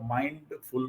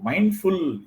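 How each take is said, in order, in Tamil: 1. இரண்டு பகுதிகளுக்கு நடுவில் ஒரு சிறிய இடைவெளி இருக்கு. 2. இரண்டு பகுதிகளும் சேர்ந்து ஒரே வார்த்தையா இருக்கு. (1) "மைண்டு கொஞ்சம் கேப் விட்டு எஃப்யூஎல் ஃபுல் சொன்னீங்கன்னா மனசு ஃபுல்லா ரொம்ப இருக்கும்" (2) "சேர்த்து ஒரே வார்த்தை"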